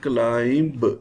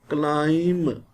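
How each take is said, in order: First: A B sound is pronounced at the end. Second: No B sound is pronounced at the end. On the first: The speaker calls it wrong. "We shall not read it climb" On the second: The speaker calls it right. "What is the word?"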